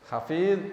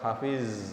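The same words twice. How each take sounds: First: It ends with a heavy emphatic Arabic consonant. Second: It ends with a plain z sound. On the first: The speaker calls it right. "pakai dha" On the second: The speaker calls it wrong. "kadang dibaca hafiz"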